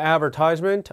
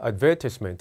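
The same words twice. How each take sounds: First: It is said with an American accent. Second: It is said with a British accent.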